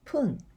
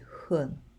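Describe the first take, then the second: First: The word begins with a p sound. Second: The word begins with a soft f sound. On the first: It follows tens like ten or twenty. "the pronunciation becomes じゅっぷん" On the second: It follows numbers like five. "You always say 分, ごふん"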